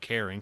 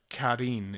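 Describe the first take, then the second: First: The name sounds like the English name Karen. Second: The name is said like a Japanese name. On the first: The speaker calls it wrong. "not like Karen, compilation Karen" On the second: The speaker calls it right. "It's like a Japanese name"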